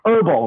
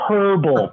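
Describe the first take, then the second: First: It is said with an American pronunciation. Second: It is said with a British pronunciation. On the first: "I'm such an American. I'm like" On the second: "And they're like, no, it's herbal"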